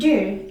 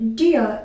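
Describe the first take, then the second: First: It is said in an American English accent. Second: It is said in a British English accent. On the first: "in American English" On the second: "in British English"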